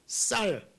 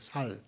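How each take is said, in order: First: The first consonant is a tense s sound. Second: The first consonant is a plain s sound. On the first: "쌀을 갖다" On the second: "그냥 살로 그러죠"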